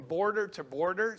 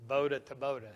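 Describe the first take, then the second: First: Said in the usual way. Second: "boda" without the r, open a at the end; local pronunciation. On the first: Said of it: "so it, they're boda bodas". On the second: Shown as a demonstration. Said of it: "they're boda bodas".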